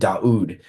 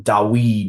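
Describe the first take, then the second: First: The middle sound is a u vowel. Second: The middle sound is a w consonant. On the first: This is the original form of the name. The speaker calls it right. "That's how they said his name" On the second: This is a later form of the name. The speaker calls it wrong. "not not Dawid"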